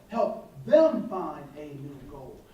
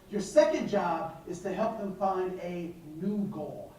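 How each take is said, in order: First: Slow, lower repeat with weight on "them"; slow emphatic repeat. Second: Said in the usual way. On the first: Shown as a demonstration. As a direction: drive home "Help them find a new goal" slowly.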